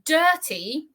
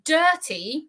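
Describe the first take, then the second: First: The t is a crisp t sound. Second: The same.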